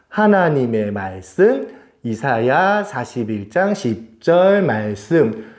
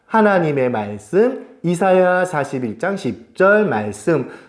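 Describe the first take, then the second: First: It is read at a slower pace. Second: It is read at a quicker pace.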